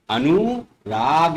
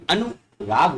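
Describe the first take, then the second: First: अनुराग slowly with a drawn-out oo; wrong long oo. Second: अनुराग with a quick short u; correct short u. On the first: Teacher reads the misspelling, अनुराग with long oo. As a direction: say अनुराग as "a-nooo-raag". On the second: Teacher gives children correct अनुराग with short u. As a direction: say अनुराग as "a-nu-raag". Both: Shown as a demonstration. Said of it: "जबकि अनुराग होता है बच्चों".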